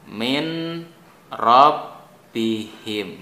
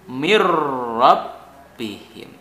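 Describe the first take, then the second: First: The n is pronounced clearly before the r. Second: The n disappears and merges into the r. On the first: "Ini bacaan normalnya begini" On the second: "maka jadi hilang atau kalah dengan ro"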